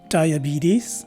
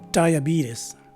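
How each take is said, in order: First: The last syllable has a long E and Z sound. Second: The last syllable has a schwa and S sound. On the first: This is the more common form in North America. "In the first variation, the letter E is a long E, and the letter S takes a Z sound" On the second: This is the less common form in North America. "in the second variation, the letter E takes a schwa sound, and the letter S is a regular S sound"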